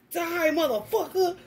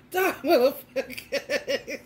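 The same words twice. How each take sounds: First: Higher, hammed-up action-movie line; mock action hero. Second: Slow, drawn out through laughter; laughing repeat. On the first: Spraying Windex at the beetle like a gun, mock action hero. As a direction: play the gunslinger firing. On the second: Real, not acted. Repeating the gun line to viewers, slow and laughing. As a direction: say it again cracking up.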